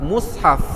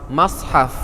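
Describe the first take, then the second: First: The first vowel is a u sound. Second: The first vowel is an a sound. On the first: "mim sad mati di depan mus" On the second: "mim sad mati di atas mas"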